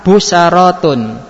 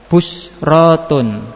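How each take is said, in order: First: An a vowel follows the second consonant. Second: No vowel follows the second consonant. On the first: "Yang kedua harokat fathah" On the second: "Yang ketiga tetap sukun"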